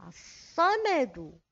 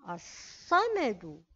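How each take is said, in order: No difference in how they are said.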